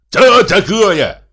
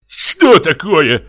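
First: High, loud, drawn-out yell; shouted retort. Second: Slow, raised, louder demand; flushed, indignant question. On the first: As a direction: yell it back slowly, pitched way up. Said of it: "закричал Михей Егорыч". (крикливо, высоким голосом) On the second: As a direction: ask it drawn out and affronted. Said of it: "спросил покрасневший Егор Егорыч". (возмущённый, протяжный вопрос) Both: A narrator's reading.

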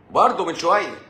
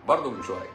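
First: "برضه" pitched high and loud; loud, high first word; emphatic exclamation. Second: Said in the usual way. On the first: Real, not acted. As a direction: hit "برضه" hard, then fall. Repeats the phrase in contrasting ways.

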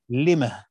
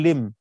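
First: لما ending in an audible h sound, as lima-h; with pausal ha. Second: لم stopped on a bare m with no h; plain stop, no ha. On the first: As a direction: stop on لما with a breathed h at the end. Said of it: "فإذا وقفت عليها قلت". (الوقف على "لما" بهاء السكت: لِمَهْ) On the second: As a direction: end لم cleanly on the m. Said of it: "فلو هيقف عليها هيقول". (الوقف على "لم" بالميم الساكنة بلا هاء) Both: Shown as a demonstration.

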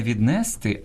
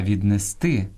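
First: Віднести stressed on НЕ; wrong middle stress. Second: Віднести stressed on final ТИ; end-stressed віднести; stress on last syllable. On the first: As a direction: say від-НЕ-сти. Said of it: "а правильно сказати". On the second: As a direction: say від-не-СТИ. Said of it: "правильно сказати". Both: Shown as a demonstration.

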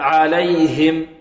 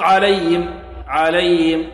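First: Slow عليهم with a distinct h; clear ha. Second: عليهم with the h swallowed, like "alayim"; weak ha. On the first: Teacher corrects the faulty reading, clear h in عليهم. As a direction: pronounce the h in عليهم fully. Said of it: "لا". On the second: Teacher imitates a faulty reader, weak h in عليهم. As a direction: let the h vanish from عليهم. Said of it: "كالذي ينطق". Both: Shown as a demonstration.

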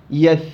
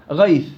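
First: يث without the غ, cut short; wrong start. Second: غيث with the غ sounded clearly first; correct start. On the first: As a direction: start the name at يث, dropping the first letter. (نطق خاطئ يبدأ من الياء) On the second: (نطق صحيح من أول حرف) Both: Shown as a demonstration. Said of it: "لا، شو يث؟".

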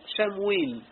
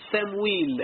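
First: شمويل with a sh sound at the start; the shin version. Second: سمويل with a plain s at the start; the sin version. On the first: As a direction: say شمويل beginning with sh, slowly. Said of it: "ب-، ب-، بالسين". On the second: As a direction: say سمويل beginning with s, not sh. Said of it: "بالسين". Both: Shown as a demonstration.

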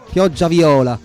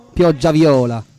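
No difference in how they are said.

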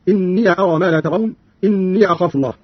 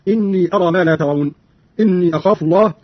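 First: "إني" as inniya both times; open ya. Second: Said in the usual way. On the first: Shown as a demonstration. Teacher showing Qalun's reading, "إني" said inniya. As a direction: add a short a to "إني": inniya. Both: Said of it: "بفتح الياء فيهما".

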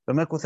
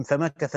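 First: "فمكث" with a "u" vowel after the k, fa-ma-ku-tha; damma on the kaf. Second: "فمكث" with an "a" vowel after the k, fa-ma-ka-tha; fatha on the kaf. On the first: Teacher showing the other Qur'anic reading, "فمكث" with damma on the kaf. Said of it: "وقال الآخرون بضمها". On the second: Teacher showing one Qur'anic reading, "فمكث" with fatha on the kaf. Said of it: "بفتح الكاف". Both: Shown as a demonstration.

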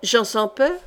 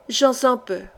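First: "Jean sans peur" as a rising question; "peur" lifted into a question; questioning rise. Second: "Jean sans peur" as a falling statement; "peur" lowered to close the answer; confirming fall. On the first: Queen asks for the name. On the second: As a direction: let "peur" drop, confirming the name. Laurence confirms the name. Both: A narrator's reading.

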